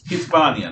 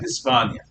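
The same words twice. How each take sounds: First: The s is pronounced with a lisp. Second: The s is pronounced plainly. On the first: This is the Castilian version. The speaker calls it right. "The Castellano has a lot of lisping in it. It's Hispania" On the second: This is the non-Castilian version. The speaker calls it wrong. "not Hispania"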